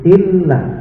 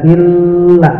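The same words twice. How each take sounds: First: The doubled l is released quickly, not held. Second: The doubled l is held and lengthened. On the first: The speaker calls it right. "nggak boleh ditahan" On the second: The speaker calls it wrong. "nggak boleh dibaca illa"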